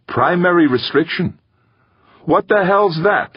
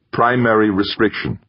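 First: Very high, rising baffled question; incredulous. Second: Lightly voiced computer statement; flat synthesized voice. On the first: Gaeta echoing the computer's answer, incredulous. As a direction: throw it back in disbelief, pitch soaring. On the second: Computer answering Gaeta's rephrased question, flat synthesized voice. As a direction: state it evenly, a hint of machine. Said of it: "the computer's flat, synthesized voice". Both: A narrator's reading.

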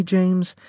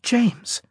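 First: High, rising, incredulous "James?"; indignant disbelief. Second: Very high, falling "James," as a warning; stern warning. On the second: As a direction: say "James," sharply to rein him in. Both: A narrator's reading.

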